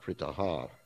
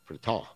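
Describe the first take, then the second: First: The final h is voiced as a full 'ha' syllable. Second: The final h is only a soft breath. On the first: The speaker calls it wrong. "it's not Pritaha" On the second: The speaker calls it right. "it's like an aspirate at that point, very softly"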